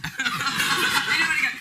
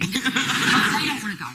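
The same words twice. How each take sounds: First: Louder laughing repeat. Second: Slow, laughing through the words. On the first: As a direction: laugh harder the second time. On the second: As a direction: chuckle the words out. Laughing retelling. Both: Real, not acted.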